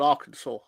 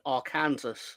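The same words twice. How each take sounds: First: The name is not pronounced as it is spelled. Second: The name is pronounced as it is spelled. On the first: The speaker calls it right. "It's called Arkansas" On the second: The speaker calls it wrong.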